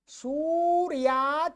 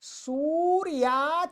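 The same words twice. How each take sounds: Both takes have the same delivery.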